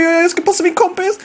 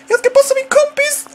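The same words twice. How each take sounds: First: Excited call. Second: Higher, louder excited call. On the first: Excited commentary building. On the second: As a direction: pitch it up even higher, nearly shouting. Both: Real, not acted.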